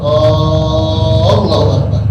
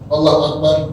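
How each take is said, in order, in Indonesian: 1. A pertama pada Akbar dipanjangkan. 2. Allah dibaca pendek; A pada Akbar pendek. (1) "A-nya dipanjangkan" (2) "Allah dipendekkan"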